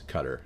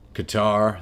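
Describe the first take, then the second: First: Qatar is given a non-American pronunciation. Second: Qatar is given an American pronunciation. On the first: "is what it's called" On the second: "that's the American pronunciation"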